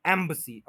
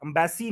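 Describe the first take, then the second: First: embassy as "EM-buh-see"; correct stress. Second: embassy as "um-BAY-see"; wrong way. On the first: Teacher contrasts right against wrong, stressed first syllable. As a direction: stress the start and swallow the middle of embassy. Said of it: "embassy नहीं". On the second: Teacher rejects the common error, mispronunciation. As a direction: shift stress to a long BAY in embassy. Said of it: "embassy कोई word नहीं होता". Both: Shown as a demonstration.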